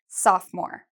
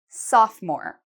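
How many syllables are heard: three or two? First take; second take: two; two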